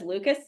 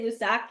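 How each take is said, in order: First: The name ends with a 'kus' sound. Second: The name ends with a 'sack' sound. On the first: The speaker calls it wrong. "he says Lucas" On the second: The speaker calls it right. "This guy doesn't say Lusac"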